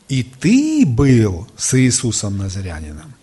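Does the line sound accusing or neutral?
accusing. It is read in an accusing, offensive tone. The remark is an accusation. "может быть, не в той интонации прочел. Можно прочесть так приблизительно"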